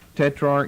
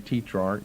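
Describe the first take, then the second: First: The first vowel is a short 'e' sound. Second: The first vowel is a long 'ee' sound. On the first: The speaker calls it right. "I think tetrarch's a better pronunciation" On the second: The speaker calls it wrong. "long E"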